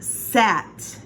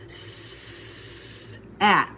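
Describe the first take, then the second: First: The sounds are blended quickly into one word. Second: The sounds are said slowly and separately. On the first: "Say it fast" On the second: "what sound does S make?"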